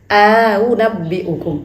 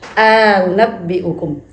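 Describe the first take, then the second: Both takes have the same delivery.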